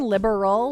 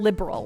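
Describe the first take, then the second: First: The vowel before the final L is pronounced. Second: The vowel before the final L is dropped. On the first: It sounds like the political word. The speaker calls it wrong. "I'm not saying liberal, like a liberal" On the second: It avoids sounding like the political word. The speaker calls it right. "I'm not pronouncing uh, the A"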